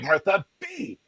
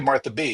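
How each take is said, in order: First: It is said excitedly, like an exclamation. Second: It is said flatly, without exclamation.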